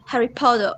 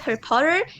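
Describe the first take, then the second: First: Potter ends with a rounded o sound. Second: Potter ends with an r-coloured er sound. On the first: "Australian people pronounce like O" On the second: "instead of E R"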